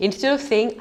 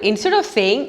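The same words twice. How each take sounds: The two takes are said the same way.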